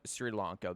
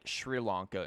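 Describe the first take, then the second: First: The first word begins with a plain s sound. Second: The first word begins with a sh sound. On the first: "instead of" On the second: "they'll put an H in there and get like"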